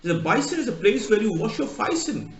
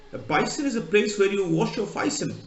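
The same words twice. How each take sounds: First: A light Cockney, "bison" for basin, "faice"; lightly imitating a Londoner saying "bison"; Cockney accent. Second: Light Cockney "bison" said again; a hint of Cockney, "bison" for basin; Cockney accent. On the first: Londoner explaining a basin, light Cockney accent. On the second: Teacher repeating the Londoner, light Cockney accent. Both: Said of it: "Just typical Cockney".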